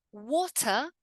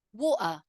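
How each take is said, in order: First: "Water" with a crisp T; careful "waw-tah"; full T. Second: "water" as "waw'ah"; throat catch in place of T in "water"; glottal T. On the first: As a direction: sound the T fully in "Water". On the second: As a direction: cut the T in "water". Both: Shown as a demonstration. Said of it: "in the two different ways".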